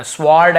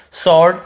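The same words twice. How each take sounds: First: "स्वॉर्ड" as "swawd", with the W pronounced; wrongly sounded W. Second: "स्वॉर्ड" as "sawd", no W at all; silent W. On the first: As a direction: put an audible W after the S in "स्वॉर्ड". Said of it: "व को नहीं पढ़ना". ("स्वॉर्ड" में व की आवाज़ के साथ) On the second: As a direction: go straight from S to AW in "स्वॉर्ड". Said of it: "ऐसे पढ़ना है हमें". ("स्वॉर्ड" को सॉर्ड, व silent) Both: Shown as a demonstration.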